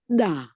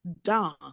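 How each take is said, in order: First: The d is soft, with no breath after it. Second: The d has a puff of breath after it. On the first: "It's a softer one" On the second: "you've got the ha in it"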